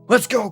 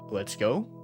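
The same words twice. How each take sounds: First: It is shouted loudly with more energy. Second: It is said quietly and without much energy. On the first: The speaker calls it right. "I was actually trying to yell my heart out" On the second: The speaker calls it wrong. "No, not like that!"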